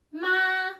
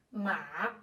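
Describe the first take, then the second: First: "ma" held long on a high, level tone; sustained, even-pitched "ma"; Mandarin tone. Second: "ma" held long on a low, dipping tone; drawn-out low "ma" with a dip; Mandarin tone. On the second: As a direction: say "ma" low, dipping then lifting. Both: Shown as a demonstration. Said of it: "só mudou o jeito de dizer".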